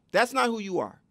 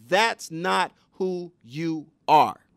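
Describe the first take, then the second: First: Said in the usual way. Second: Each word spaced out and pressed, louder; deliberate, weighty correction; slow firm emphasis. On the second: Shown as a demonstration. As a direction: look them in the eye and lay it down slowly. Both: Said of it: "You have to say".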